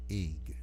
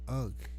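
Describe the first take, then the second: First: The word sounds like 'ing'. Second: The word sounds like 'unk'. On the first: The speaker calls it right. "is really pronounced ing" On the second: The speaker calls it wrong. "people pronounce as unk"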